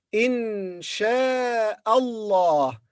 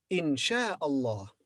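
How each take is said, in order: First: "in sha'Allah" drawn out very slowly with the words joined; teacher's slow model linking "in sha'Allah"; slow connected in sha'Allah. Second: Said in the usual way. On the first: Shown as a demonstration. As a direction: glide "in sha'Allah" together at a very slow pace. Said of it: "when we connect the words". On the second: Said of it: "normal pace repeat".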